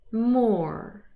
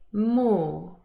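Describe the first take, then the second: First: The R after the vowel is pronounced. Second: The R after the vowel is silent. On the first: "the rhotic pronunciation" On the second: "the non-rhotic pronunciation"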